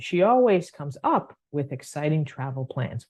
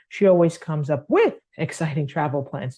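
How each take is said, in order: First: The word up is stressed. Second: The stress falls somewhere other than up. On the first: The speaker calls it right. "we're going to go up on the, the up" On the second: The speaker calls it wrong. "We don't read it"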